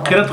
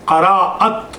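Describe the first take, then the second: First: The word is said with two syllables. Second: The word is said with three syllables. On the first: The speaker calls it wrong. "किरत गलत लफ्ज़ है" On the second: The speaker calls it right. "किरत का क़राअत है"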